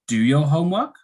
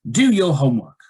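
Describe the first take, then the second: First: The pitch rises at the end. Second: The pitch falls at the end. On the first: It sounds like a question. The speaker calls it wrong. "If it was a rising intonation, it would sound strange" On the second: It is a command. The speaker calls it right. "It goes down"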